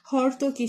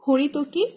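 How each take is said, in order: First: হর্তকী clipped to three syllables, hor-to-ki, the ri dropped; common everyday pronunciation. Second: হরিতকী said in full, ho-ri-to-ki, with the ri syllable kept; correct pronunciation. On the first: Teacher showing students the common mispronunciation হর্তকী, middle syllable dropped. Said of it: "আমরা অনেকেই হর্তকী বলি". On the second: Teacher giving the correct form to exam students, full four-syllable হরিতকী. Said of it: "সঠিক উচ্চারণ হবে ... হচ্ছে হরিতকী". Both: Shown as a demonstration.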